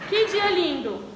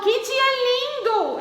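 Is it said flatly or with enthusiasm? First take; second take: flatly; enthusiasm. First: It is said in a plain, neutral way. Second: It is said with lively enthusiasm.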